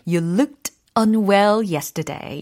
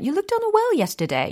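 First: Each word is articulated clearly and separately. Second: The words run together in relaxed, reduced speech. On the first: This is an exaggerated version for practice. "연습은 좀 과장해서 하는 게 좋다고 ... 이렇게 또박또박 알려드리는 겁니다" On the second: This is how it sounds in real conversation. "사실은 진짜 회화상에서는 ... 이렇게 들리겠죠"

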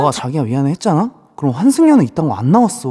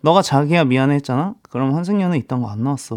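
First: It is acted out in an agitated tone. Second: It is read out in a calm, plain tone.

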